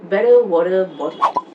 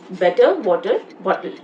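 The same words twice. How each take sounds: First: The t sounds are soft flapped d sounds. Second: The t sounds are clear and crisp. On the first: "In American accent, with a flap D" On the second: "So in Indian accent, how do we say this?"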